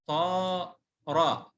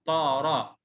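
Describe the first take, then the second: First: طارة split into long طا, pause, را; stretched, broken-up طارة for a pupil; spelled out. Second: Said in the usual way. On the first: Shown as a demonstration. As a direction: sound out طارة very slowly by syllable. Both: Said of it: "اتهجى".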